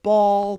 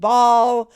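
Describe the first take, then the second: First: The word has a tightened standard accent. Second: The word has a Southern country accent. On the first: "I tried to tighten up my tongue" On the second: "instead of saying ball"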